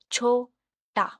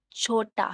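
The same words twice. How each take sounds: First: "छोटा" split as छो, टा; syllable by syllable. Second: Said in the usual way. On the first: Shown as a demonstration. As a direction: say "छोटा" in two separate beats. ("छोटा" दो टुकड़ों में, छो-टा) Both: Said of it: "टू syllables".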